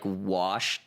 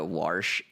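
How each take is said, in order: First: The word is said without an R sound. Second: The word is said with an added R sound.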